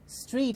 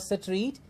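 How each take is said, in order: First: It is said as a single syllable. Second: An extra vowel splits it into two syllables. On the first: The speaker calls it right. "it's street" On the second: The speaker calls it wrong. "it's not Sapring or Satreet"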